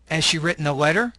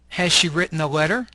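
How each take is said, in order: First: The words are weakened and run together. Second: Each word is said fully and separately. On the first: "The second column has a reduced form" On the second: "you'll have the long form"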